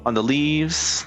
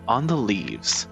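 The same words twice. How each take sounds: First: It is said in a plain, normal voice. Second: It is said in a storytelling narrator voice.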